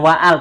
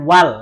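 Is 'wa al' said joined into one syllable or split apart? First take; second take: split; joined. First: The two parts are split with a break. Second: The two parts are joined into one syllable. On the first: The speaker calls it wrong. "Bukan wa'al" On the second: The speaker calls it right. "tapi wal langsung"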